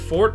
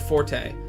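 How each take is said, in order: First: The name is said with one syllable. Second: The name is said with two syllables. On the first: "Fort is fewer syllables" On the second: "the official pronunciation is Forte"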